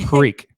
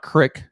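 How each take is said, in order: First: The vowel is a long 'ee' sound. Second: The vowel is a short 'i' sound. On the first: The speaker calls it right. "exactly how it's spelled" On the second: The speaker calls it wrong. "It's not crick"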